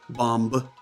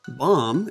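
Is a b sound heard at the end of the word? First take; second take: yes; no. First: The word ends with an audible b sound. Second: The word ends on the m sound. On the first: The speaker calls it wrong. "is not bomb" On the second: The speaker calls it right. "There's that silent B at the end"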